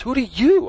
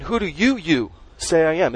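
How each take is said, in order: First: "you" pitched high and leaned on; stress on YOU. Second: "you" lifted with a questioning rise; stress on you. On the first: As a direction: throw the weight onto "you", sharply higher. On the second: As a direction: lean on "you" and repeat it. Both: Shown as a demonstration. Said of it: "It's emphasized".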